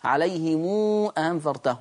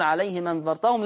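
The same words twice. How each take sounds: First: Slow, عليهم ending in a long "mû"; sıla ile okuma. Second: عليهم run into أنذرتهم, hamza dropped; no long "mû", slide عليهم straight into أنذرتهم; nakil ile okuma. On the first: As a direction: stretch عليهم to "aleyhimûû" before a clear hamza in أنذرتهم. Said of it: "كنت بعمل لها صلة". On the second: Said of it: "كنت بعمل لها نقل؟". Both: Shown as a demonstration.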